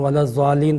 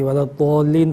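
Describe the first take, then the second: First: "ولا الضالین" with a z sound, wa-laz-zaalleen; Z-sound variant. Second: "ولا الضالین" with a heavy, rounded d, wa-lad-dwaalleen; heavy D-sound variant. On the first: Scholar quoting one way reciters read it, "الضالین" with a z sound. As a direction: say the ض of "الضالین" as an emphatic z. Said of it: "ولا الضالین کے حوالے سے". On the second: Scholar quoting the other reading, "الضالین" with a heavy rounded d. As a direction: say the ض of "الضالین" as a deep d, not z. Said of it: "کبھی سنتا ہوں". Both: Shown as a demonstration.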